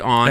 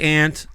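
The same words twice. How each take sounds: First: The vowel sounds like the one in 'awe'. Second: The vowel sounds like the one in 'ant'. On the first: This is the speaker's own way of saying it. "I say aunt. ... It's A U, which is aw" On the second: This is how most people say it. "people say aunt"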